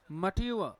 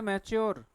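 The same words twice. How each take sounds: First: मट्यू अ said as ma-tyu-a, with t and a glide; correct pronunciation. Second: मैच्योर said as met-chor, the common mistake; common wrong pronunciation. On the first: Teacher gives students the right form, correct pronunciation. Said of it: "हम बोलते हैं इसे मैच्योर". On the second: Teacher shows students the mistake, wrong pronunciation. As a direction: say मैच्योर the way people get it wrong. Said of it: "मैच्योर नहीं है". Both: Shown as a demonstration.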